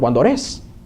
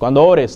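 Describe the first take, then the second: First: The stress in 'ores' is on the second syllable. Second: The stress in 'ores' is on the first syllable. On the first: This is the Central American form. "O en centroamericano, ... Con acento en otro lado" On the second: This is the everyday Mexican form. "digamos nosotros"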